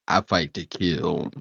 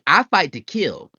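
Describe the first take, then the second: First: It is said in a deeper voice. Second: It is said in his normal voice.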